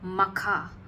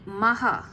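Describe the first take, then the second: First: The middle has no soft h sound. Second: The middle has a soft h sound. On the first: This form arose from communities unable to say the h. "couldn't pronounce the H. So it became Makha" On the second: This is the original name meaning the great. "It's actually Maha the Great"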